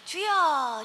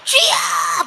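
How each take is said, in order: First: It is called out casually, without urgency. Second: It is called out desperately, with urgent longing.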